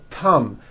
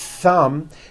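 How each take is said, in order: First: It begins with a t sound, tongue in. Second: It begins with a th sound, tongue out. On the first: The speaker calls it wrong. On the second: The speaker calls it right.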